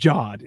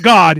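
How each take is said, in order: First: The word starts with a J sound. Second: The word starts with a hard G sound. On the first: The speaker calls it right. "it's pronounced Jod" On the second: The speaker calls it wrong. "It's not God"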